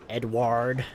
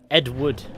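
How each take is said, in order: First: The name is said in an American accent. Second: The name is said in a British accent. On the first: "How do Americans say it?" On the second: "I guess that's just how it's said in the accent"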